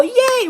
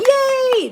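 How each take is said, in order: First: High, bright mock cheer again. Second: High, bright mock cheer. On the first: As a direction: cheer like the crowd. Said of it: "Now they go". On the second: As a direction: cheer it like the crowd. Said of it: "people aren't usually going".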